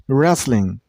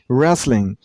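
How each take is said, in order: The two takes are said the same way.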